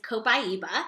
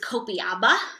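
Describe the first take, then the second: First: The vowels are in order, giving co-PIE-ba. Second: The vowels are swapped, giving co-pee-AH-ba. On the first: The speaker calls it right. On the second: The speaker calls it wrong.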